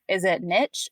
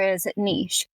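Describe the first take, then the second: First: "niche" said as "nitch", rhyming with itch; "niche" pronounced NITCH; alternate pronunciation. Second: "niche" said as "neesh", rhyming with leash; "niche" pronounced NEESH; preferred pronunciation. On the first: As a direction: say "niche" with a short i and a hard tch ending. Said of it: "it's just a weird thing where". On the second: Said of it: "I love that you pronounce it niche". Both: Shown as a demonstration.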